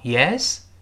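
The pitch rises at the end of the word. It asks what the other person wants. "升调Yes 就是什么事儿啊"

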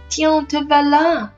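The highest pitch falls on voilà. "他把这个voilà放在最高点了"

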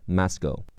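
The first vowel is an open 'ah' sound. "美式发音是m a m"

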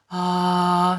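The voice is breathy and airy.

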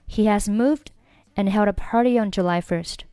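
'Party' runs straight into 'on' with a glide. "你可以选择连在一起读"

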